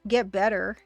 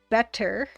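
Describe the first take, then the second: First: The middle consonant is soft and mushy. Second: The middle consonant is crisp and clear. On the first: The speaker calls it wrong. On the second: The speaker calls it right. "when it should be better"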